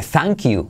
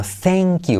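First: "thank you" said as "zank you" with open A; Spanish A vowel. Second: "thank you" said like "thenk you", slower; E-like A vowel. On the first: Teacher showing what nobody says, "thank you" with a plain A. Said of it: "Nadie dice thank you". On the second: Teacher correcting the vowel, slower "thank you" leaning to E. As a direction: stretch "thank" towards "e-a". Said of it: "sino thank you". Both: Shown as a demonstration.

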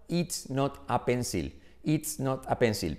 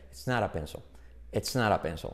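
First: Slow, word-by-word Spanish-accented "It's not a pencil"; careful Spanish learner's accent on "It's not a pencil"; Spanish-accented English. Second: "It's not a pencil" run together as "tsnára penso"; soft tapped R for the T in "not a"; lower, quicker "It's not a pencil" as one word; native linked pronunciation. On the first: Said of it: "los españoles diríamos". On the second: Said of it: "los nativos dicen". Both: Shown as a demonstration.

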